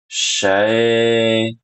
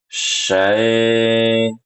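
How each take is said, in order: The two takes are said the same way.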